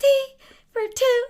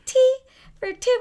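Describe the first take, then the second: First: High, loud sung imitation of a friend; imitating Stacey. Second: Much higher and louder mock singing; imitating Stacey. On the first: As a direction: belt it out much higher, like Stacey. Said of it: "I sound like Stacey". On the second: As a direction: squeal the line like Stacey does. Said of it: "My friend Stacey talks like this".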